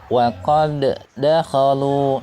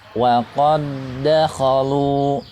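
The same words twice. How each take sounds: First: The first d is released with an echoing bounce. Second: The first d merges straight into the second d. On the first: The speaker calls it wrong. "jangan sampai dibaca misalnya ... ini salah ya. Tidak ada qalqalah ya" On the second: The speaker calls it right. "Yang betul adalah"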